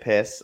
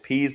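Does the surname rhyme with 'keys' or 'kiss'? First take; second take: kiss; keys. First: The vowel is short, like in 'kiss'. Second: The vowel is long, like in 'keys'. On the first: The speaker calls it wrong. "if you pronounce it out, you get piss" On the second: The speaker calls it right. "It's peas like the vegetable"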